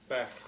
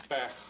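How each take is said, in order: First: The vowel is said short and quick. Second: The vowel is said short and quick.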